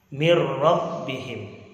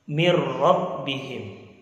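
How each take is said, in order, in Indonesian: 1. Bunyi n melebur ke r setelahnya. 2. Bunyi n melebur ke r setelahnya.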